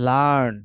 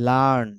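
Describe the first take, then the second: The two takes are said the same way.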